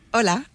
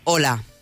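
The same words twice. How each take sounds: First: It sounds relaxed, warm and friendly. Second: It sounds strong, tense and authoritative.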